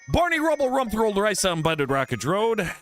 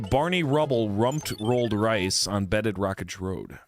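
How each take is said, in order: First: It is said fast. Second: It is said slowly.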